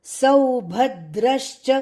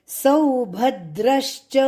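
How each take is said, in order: The two takes are said the same way.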